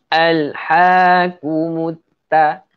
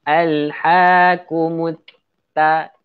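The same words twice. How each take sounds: The two takes are said the same way.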